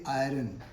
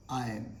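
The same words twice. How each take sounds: First: 'iron' as eye-run, R voiced; R sounded. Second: 'I am' run together as eye-un; silent R. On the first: Teacher warns learners against it, R sounded. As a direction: say 'iron' wrongly with an r before the vowel. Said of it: "never say iron". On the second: Teacher corrects learners, silent R. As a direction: say 'I am' as iron without its r. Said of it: "R is silent here". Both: Shown as a demonstration.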